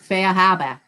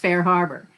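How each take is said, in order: First: It is said in a Cape Cod accent. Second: It is said in a standard American accent. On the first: "if you were a real Cape Codder, you would pronounce it Fair Harbor" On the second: "I would pronounce Fair Harbor"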